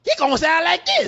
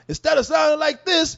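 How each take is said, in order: First: High, excitable cartoon donkey jabber. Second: Higher, called-out old cartoon dog voice; Hong Kong Phooey. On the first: Podcaster mocks the feared movie voice, Donkey impression. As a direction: squeeze it up into a talking donkey. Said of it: "why I sound like Donkey". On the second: Podcaster demonstrates the original cartoon sound, Hong Kong Phooey impression. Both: Shown as a demonstration.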